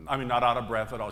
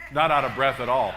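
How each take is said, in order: First: Said in the usual way. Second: Louder, with a laugh, amazed; loud laughing marvel; laughing emphasis. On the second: Real, not acted. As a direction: burst out laughing at the memory.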